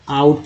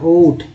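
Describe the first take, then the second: First: The vowel glides from 'ah' to 'oo'. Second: The vowel is a plain 'oh' sound. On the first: The speaker calls it right. "आउट पढ़ रहे हैं" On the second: The speaker calls it wrong. "ओट नहीं पढ़ रहे"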